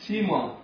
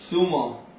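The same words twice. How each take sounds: First: The s is followed by an i vowel. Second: The s is followed by a u vowel. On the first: "بكسر السين" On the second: "بضم السين"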